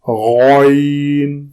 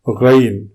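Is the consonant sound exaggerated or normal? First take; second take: exaggerated; normal. First: The letter is said with exaggerated force. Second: The letter is said with normal force.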